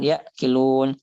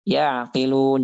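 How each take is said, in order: First: The ain is held back and sounds like gh. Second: The ain is clear, with a half-held voice. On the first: The speaker calls it wrong. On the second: The speaker calls it right. "Maka kita wajib menjaga sifat tawassut pada ainnya"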